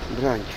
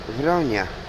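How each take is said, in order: First: It starts with a b sound, one syllable. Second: It starts with a v sound, two syllables. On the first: The speaker calls it wrong. "to on mówi broń" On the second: The speaker calls it right. "zamiast powiedzieć wronia"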